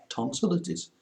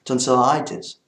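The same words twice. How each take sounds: First: "tonsillitis" said French-style as "TON-si-li-tis", the i short; mispronounced tonsillitis. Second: "Tonsillitis" said the English way, "ton-si-LIE-tis", louder and rising; corrected pronunciation. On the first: Belgian vlogger trips over the word in the French way. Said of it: "Tonsillitis, sorry". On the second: Vlogger fixes his own word right after a slip, corrected pronunciation. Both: Shown as a demonstration.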